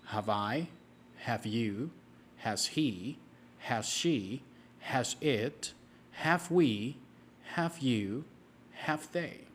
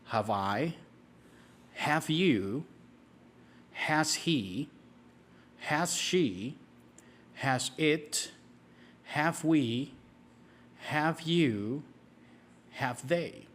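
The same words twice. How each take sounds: First: It is said at a faster pace. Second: It is said at a slow, steady pace.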